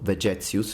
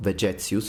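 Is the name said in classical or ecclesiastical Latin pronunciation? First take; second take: ecclesiastical; ecclesiastical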